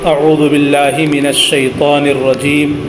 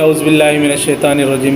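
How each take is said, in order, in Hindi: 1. हर आवाज़ तजवीद के क़ायदों के साथ ध्यान से अदा की जाती है। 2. अल्फ़ाज़ आम रोज़मर्रा के अंदाज़ में सादगी से पढ़े जाते हैं। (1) "तजवीद के साथ पढ़ने का मसला ये है" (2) "जैसे हमारी आदत होती है"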